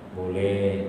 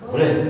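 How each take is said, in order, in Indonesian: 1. Diucapkan dengan nada lembut. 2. Diucapkan dengan nada ketus. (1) "itu halus ya" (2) "ada yang kasar tadi"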